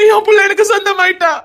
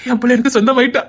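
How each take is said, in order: First: Father shouting through joyful tears; crying shout. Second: Said in the usual way. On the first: Acted. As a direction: cry it out to the world. Father repeats, rising to a cry.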